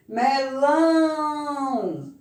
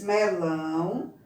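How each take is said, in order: First: Melão very slowly, with a high, loud, long LÃO; stress on last syllable. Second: Said in the usual way. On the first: Shown as a demonstration. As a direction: swell and hold the LÃO in Melão. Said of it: "No lão". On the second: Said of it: "nós temos primeiro banana".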